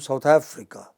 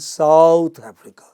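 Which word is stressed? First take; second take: Africa; South. First: The stress is on the second word. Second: The stress is on the first word. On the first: "not on the south, but on Africa" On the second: "I don't mean North Africa"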